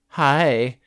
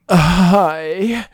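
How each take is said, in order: First: It is said in a flat, plain tone. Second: It is said in a flirty tone.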